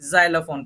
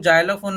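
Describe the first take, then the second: First: It begins with a buzzing z sound. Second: It begins with a j sound. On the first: The speaker calls it right. "पढ़ना है" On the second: The speaker calls it wrong. "नहीं पढ़ना है"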